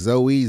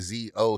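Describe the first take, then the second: First: The name ends with an 'ee' sound. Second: The name ends with an 'oh' sound. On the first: "Z O E Y sounding" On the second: "Z O sounding"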